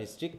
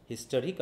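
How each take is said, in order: First: হিস্ট্রিক with the middle vowel dropped; reduced two-syllable pronunciation. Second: হিস্টোরিক with a full টো in the middle; full three-syllable pronunciation. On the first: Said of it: "যেটা বলি আমরা হিস্ট্রিক". (মাঝের স্বর বাদ দিয়ে হিস্ট্রিক) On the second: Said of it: "হিস্টোরিক হয়ে যাচ্ছে হিস্ট্রিক". (হিস্টোরিক-এর টো পুরো উচ্চারণ করে) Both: Shown as a demonstration.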